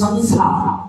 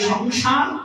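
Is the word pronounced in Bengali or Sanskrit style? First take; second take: Sanskrit; Bengali. First: It is pronounced the Sanskrit way, with dental s sounds. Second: It is pronounced the Bengali way, with sh sounds. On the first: "সংস্কৃতে সংসার" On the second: "বাংলায় সংসার"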